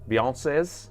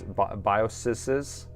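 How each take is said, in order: First: It sounds like the singer's name 'Beyonce's'. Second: It sounds like 'bye-oh-sez', with a clear S sound. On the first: "you can just pronounce it as Beyonce, like the singer" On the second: "The plural of BIOS is BIOSes"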